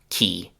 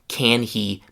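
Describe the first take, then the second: First: A k sound joins he, with no h. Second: Can and he are both said in full.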